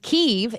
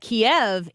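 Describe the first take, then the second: First: The name is pronounced the Ukrainian way. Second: The name is pronounced the Russian way. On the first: "Kyiv is the Ukrainian pronunciation of the town" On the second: "Kiev is the Russian pronunciation of that town"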